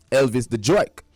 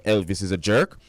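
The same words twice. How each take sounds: First: Jerk said in a New York accent. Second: Said in the usual way. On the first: Shown as a demonstration. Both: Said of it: "that's jerk in New York accent".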